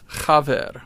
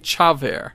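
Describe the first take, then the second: First: The first sound is a rasp in the throat. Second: The first sound is like English 'ch'. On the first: The speaker calls it right. "you've got to do something a little bit with your throat" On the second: The speaker calls it wrong. "it's spelled C-H-A, but don't say chaver"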